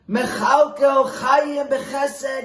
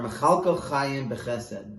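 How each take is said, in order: First: Much higher, louder and slow, a pleading cry; emotional scream. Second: Said in the usual way. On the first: Retold or imitated. Rebbe pleading with God for his starving people, screaming. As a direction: cry it out to heaven with everything you have. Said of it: "he would scream on top of his lungs with great emotion". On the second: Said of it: "And the words are".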